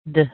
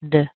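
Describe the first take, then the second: First: The vowel is a very short, weak sound. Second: The same.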